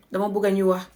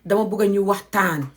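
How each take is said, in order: First: Said in the usual way. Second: "waxtaan" said in full, both syllables clear; correct Wolof form. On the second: Shown as a demonstration. Teacher models the right word to students, clearly. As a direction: stretch "Dama bugga ñu waxtaan" to the full word. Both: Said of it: "is the correct way".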